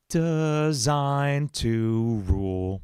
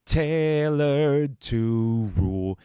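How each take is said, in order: First: "Designed to rule" sung slowly with the stress landing awkwardly; stress on the wrong syllable. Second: "tailored to rule" sung slowly, stress falling on "tai"; better-fitting stress. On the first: Demoing a lyric line for stream viewers, slow sung stress test. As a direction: drag out "Designed" in a slow singsong. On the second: Comparing lyric options for viewers, slow sung line. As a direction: stretch "tailored" long and slow, first syllable leading. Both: Shown as a demonstration. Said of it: "You can hear it makes more sense".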